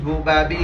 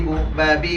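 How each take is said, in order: Both takes have the same delivery.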